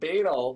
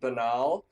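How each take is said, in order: First: The word rhymes with 'anal'. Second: The word does not rhyme with 'anal'. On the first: This is a valid British way of saying it. "but I pronounced it banal" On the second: This is the common American way of saying it. "a lot of Americans pronounce it banal"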